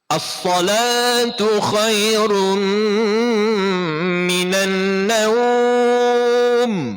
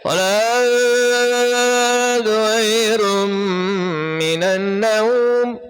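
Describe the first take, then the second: First: Every consonant is pronounced clearly and fully. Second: Some consonants are dropped or blurred. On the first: The speaker calls it right. "Betul-betul sebut. Hujungnya mim, biar bunyi mim" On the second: The speaker calls it wrong. "kha-nya ke mana, hamzahnya ke mana"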